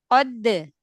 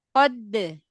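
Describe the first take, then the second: The two takes are said the same way.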